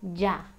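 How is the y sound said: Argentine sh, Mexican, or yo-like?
Mexican. The y is said the Mexican way. "I taught you the way that Mexicans say it"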